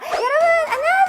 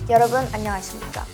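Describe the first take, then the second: First: It is said in a bright, lively idol tone. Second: It is said in a calm, low announcer tone.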